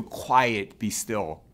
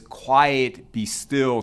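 First: Softer, tender words to a worried friend; Jesus speaking softly to a troubled listener; gentle reassurance. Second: Firm, mild command to the sea; Jesus speaking to the wind and sea, firm and commanding; Jesus calming the storm. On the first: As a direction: soothe a frightened heart gently. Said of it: "And he says to you". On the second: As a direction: calmly order the wind to stop. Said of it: "and he says". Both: Retold or imitated.

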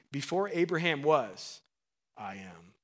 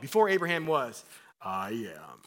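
First: Said in the usual way. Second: Imagined Jesus voice. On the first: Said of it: "first reading of the verse". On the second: Retold or imitated. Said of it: "Can you imagine Jesus' voice".

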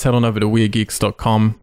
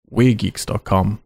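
First: Said in the usual way. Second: Slow, words spaced apart; slow with gaps. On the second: Shown as a demonstration. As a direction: leave a gap between words. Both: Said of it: "Leaving the gap there now".

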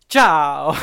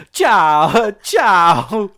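First: Mock Italian goodbye. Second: Louder, higher, sing-song ciao ciao; a hammed-up, airy Italian farewell; breezy Italian goodbye. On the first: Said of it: "your man is like". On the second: Imitating the commissioner's offhand farewell, breezy and loud. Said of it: "No, he just goes".

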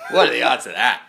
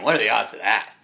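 First: Higher and even louder, near a shout; louder mock outrage. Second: Loud, stunned complaint; mock outrage. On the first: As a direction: hammer the question home in disbelief. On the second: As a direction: protest the bad luck loudly. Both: Slams his hand down.

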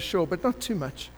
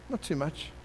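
First: Said in the usual way. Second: Repeated softly, NOT too much falling quietly; quiet wry repeat of Not too much; softer echo. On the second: Shown as a demonstration.

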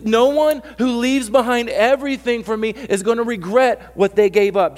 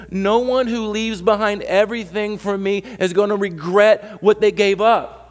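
First: High, loud insistence repeated; repeated emphatic. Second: Slow, loud, high insistence; no one who leaves behind everything stretched out slowly; emphatic restating. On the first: Pastor repeating the promise for the doubter, loud. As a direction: hammer it again, loud and high. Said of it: "you don't understand. I went". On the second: Pastor correcting a doubter, slow and emphatic. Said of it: "no, you don't understand". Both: Shown as a demonstration.

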